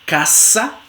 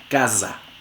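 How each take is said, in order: First: The middle s is voiceless, without buzzing. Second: The middle s is voiced, with buzzing. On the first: "que se realiza sorda" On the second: "en habla rápida la gente suele ponerle voz a esa consonante"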